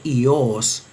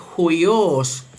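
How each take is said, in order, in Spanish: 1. Empieza directamente con una vocal 'i'. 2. Empieza con un sonido 'h' y 'ui'. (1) "que no tiene aspiración inicial ... se leería simplemente ios" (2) "leído con la aspiración inicial en la pronunciación erasmiana"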